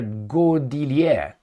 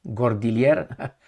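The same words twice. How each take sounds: First: "Gordillier" with a silent final r; drawn-out French "Gordillier"; French pronunciation. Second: "Gordillier" with both r's sounded; slow, lower "Gordillier" with English r's; anglicised pronunciation. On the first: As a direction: say "Gordillier" French-style, ending in "-yay". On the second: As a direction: say "Gordillier" ending in a hard "-yer". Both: Shown as a demonstration. Tries the French name two ways.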